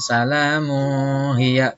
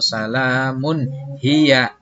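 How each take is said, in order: First: The nun sound before hiya is not clearly pronounced. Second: The nun sound before hiya is clearly pronounced. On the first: The speaker calls it wrong. "Bukan salamu hiya. Tidak boleh" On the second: The speaker calls it right. "tapi dibacanya jelas"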